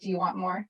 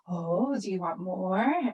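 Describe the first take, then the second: First: It is said in a flat, plain way. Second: It is said with warm, lively engagement.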